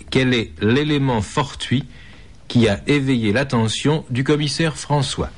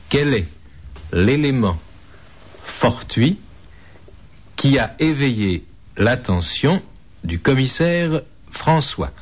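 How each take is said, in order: First: Said in the usual way. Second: Slow, with long pauses between words; slowly. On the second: Shown as a demonstration. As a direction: spell it out slowly, word by word. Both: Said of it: "Je répète lentement".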